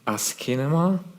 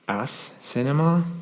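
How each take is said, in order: First: The second syllable starts with a k sound. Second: The second syllable starts with an s sound. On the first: The speaker calls it right. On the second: The speaker calls it wrong. "No, not really"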